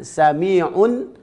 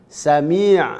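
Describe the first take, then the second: First: The word ends with an audible n sound. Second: The word ends without an n sound. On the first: The reader continues into the next word. "Ketika wasal baru nampak nunnya" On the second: The reader stops on this word. "ketika dibaca waqaf tidak nampak nun"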